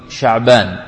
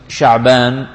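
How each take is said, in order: Both takes have the same delivery.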